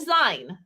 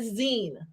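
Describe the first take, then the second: First: The vowel does not sound like 'magazine'. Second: The vowel sounds like the end of 'magazine'. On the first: The speaker calls it wrong. "Not a zine" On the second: The speaker calls it right. "how to say it right. We're making a zine, right?"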